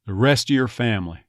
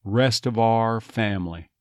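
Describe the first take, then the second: First: "of your" as "uh-yer" in "rest of your family"; dropped V. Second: "of our" said "uh-var" in "rest of our family"; V retained. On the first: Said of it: "but when it's your". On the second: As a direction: link the V of "of" into "our". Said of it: "Notice that V comes back in there". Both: Shown as a demonstration.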